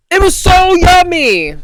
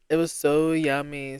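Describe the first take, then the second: First: High, loud gushing yummy; excited squeal. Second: Said in the usual way. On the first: Real, not acted. Telling listeners about the Cambodian meal, excited squeal. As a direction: burst out delighted about the food.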